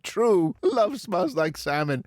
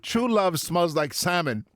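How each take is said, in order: First: There is a pause after 'true'. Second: It flows on with no pause after 'true'.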